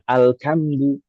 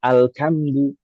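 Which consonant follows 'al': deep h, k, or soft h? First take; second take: k; k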